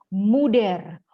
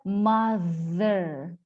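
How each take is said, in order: First: The middle consonant is a hard d sound. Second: The middle consonant is a soft th sound. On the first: The speaker calls it wrong. "Padahal salah" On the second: The speaker calls it right. "harusnya mother"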